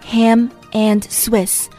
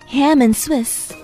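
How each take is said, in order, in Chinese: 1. 'and' 是完整读出的。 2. 'and' 弱化成了 n 音。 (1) "本地人一般都不会说ham and Swiss" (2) "把中间的and 缩短为一个字母的发音，就是字母n"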